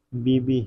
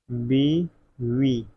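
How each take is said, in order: First: बीबी said with a plain b, the wrong form; बीबी with b in the second syllable, not v; wrong spelling said. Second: बीवी drawn out very slowly, with a clear v sound; correct pronunciation. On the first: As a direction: say बीबी as the teacher's wrong example. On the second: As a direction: stretch बीवी slowly for dictation, voicing the v. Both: Shown as a demonstration. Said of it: "बीवी होता है".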